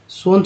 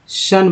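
First: The vowel is a long 'o' sound. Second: The vowel is a short 'uh' sound. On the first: The speaker calls it wrong. "सोन थोड़ी बोलते हैं" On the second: The speaker calls it right. "शन बोलते हैं, यानी अ का उच्चारण अ के रूप में"

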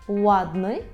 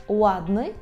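Both takes have the same delivery.

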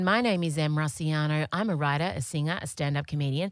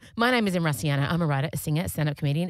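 First: It is said at a normal, slower pace. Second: It is said very fast.

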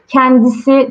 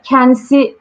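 First: Every sound of the word is pronounced. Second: One sound of the word is skipped entirely. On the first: The speaker calls it right. "Kendisi demek yerine" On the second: The speaker calls it wrong. "Tamamen atlamaktan bahsediyoruz"

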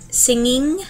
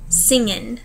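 First: The ending is pronounced with an 'ng' sound. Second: The ending is pronounced with an 'n' sound.

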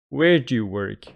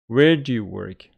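First: Do and you blend with a slight j sound. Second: Do and you blend with a slight j sound.

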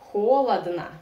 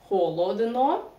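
First: The unstressed vowels are reduced to an 'a' sound. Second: The unstressed vowels are said as a full 'o'. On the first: "but we say холодно" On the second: "That's why we write холодно"

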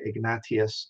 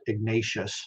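First: The name is said with Spanish vowels. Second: The name is said with English vowels. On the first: "I say it the Spanish way" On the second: "not Ignatius"

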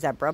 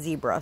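First: It is said with a non-American pronunciation. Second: It is said with an American pronunciation. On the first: "I say zebra" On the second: "Americans usually say zebra"

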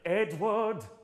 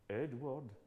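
First: The name is said at a higher pitch. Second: The name is said at a lower pitch. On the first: "When she first says Edward, it's slightly higher" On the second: "When she says it again, it's a bit lower"

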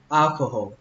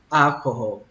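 The two takes are said the same way.

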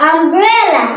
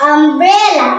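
No difference in how they are said.

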